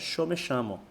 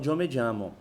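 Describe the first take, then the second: First: The y and ll sound like 'sh'. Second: The y and ll sound like 'y'. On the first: This is how it is said in Argentina. "O argentino pronuncia" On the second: This is how it is said in Mexico. "O mexicano fala"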